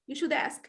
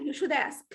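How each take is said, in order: First: The d of should links into ask. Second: The same.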